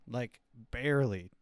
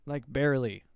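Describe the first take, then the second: First: Said in the usual way. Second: "barely" pushed out louder and falling; emphatic barely. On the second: Shown as a demonstration. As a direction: lean hard on "barely", a bit louder. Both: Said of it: "I can't even get it to do a patois accent".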